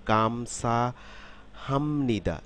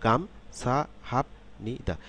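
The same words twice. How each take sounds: First: "গাম, সা, হামনিদা" run together as a word, m before n; syllables joined, p becomes m. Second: "গাম, সা, হাপ, নি, দা" as separate syllables, with a p closing "হাপ"; "হাপ" ending in p, not m, each syllable on its own. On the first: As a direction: say "হামনিদা" with the p turned into m, flowing into "নিদা". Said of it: "পরিবর্তিত হয়ে এরকম হবে". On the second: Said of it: "আলাদা আলাদাভাবে যদি উচ্চারণ করি". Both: Shown as a demonstration.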